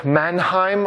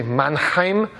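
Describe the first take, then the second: First: Said in the usual way. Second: Mannheim said with a mock German accent, the way a German would say it. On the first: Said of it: "or I believe you say Mannheim". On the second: Shown as a demonstration. Lecturer to students, naming the theorist, in a playful German accent. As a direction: give Mannheim your best German accent, a bit hammed-up. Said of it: "that is the best German accent that I can do".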